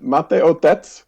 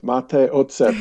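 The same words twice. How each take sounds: First: Slow, asking "otec" oh-tets with a rise, the letters swapped; hesitant rising "Mate, otec?" at the counter; mixed-up Czech. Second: "ocet" with ts at the end, oh-tset; careful practice take of "mate, ocet"; correct Czech. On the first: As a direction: mistakenly ask for "otec", father. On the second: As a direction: say "ocet" right, as vinegar. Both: Retold or imitated. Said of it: "switched the letters of the word".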